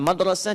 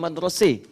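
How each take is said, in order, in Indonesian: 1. Vokal akhirnya 'a' terbuka biasa. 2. Vokal akhirnya condong ke 'e'. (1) "Kita madrasah" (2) "itu sering pakai imalah. ... dia madrasah"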